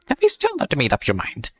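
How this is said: It is read in a Joker impression voice.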